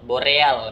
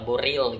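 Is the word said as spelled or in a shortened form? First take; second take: as spelled; shortened. First: The word is pronounced just as it is spelled. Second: The word is pronounced in a shortened form, 'boril'. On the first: "tulisannya boreal" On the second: "dibaca mungkin boril"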